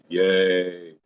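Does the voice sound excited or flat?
flat. The words are said flatly, without excitement. The speaker calls it wrong. "You can't go"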